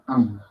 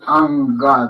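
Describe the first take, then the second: First: It ends in a throaty nasal with no vowel. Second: An extra vowel is added after the nasal. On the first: The speaker calls it right. "A-N, pero gutural" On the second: The speaker calls it wrong. "No es anga"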